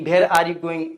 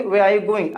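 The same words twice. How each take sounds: First: Where said with breathy bh; the common mistake, bhere are you going; wrong bhere pronunciation. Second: Where with a clear w sound; the right way, clean w; correct where. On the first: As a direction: start Where like Hindi भ. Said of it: "तो लोग क्या बोलते हैं". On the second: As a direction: say Where with rounded w. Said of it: "तो sentence में कैसे use करेंगे". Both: Shown as a demonstration.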